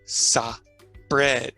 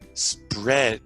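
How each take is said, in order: First: An extra vowel splits it into two syllables. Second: The s and p blend into one syllable. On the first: The speaker calls it wrong. "This is incorrect" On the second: The speaker calls it right. "We want to say that S P as one sound. Correct?"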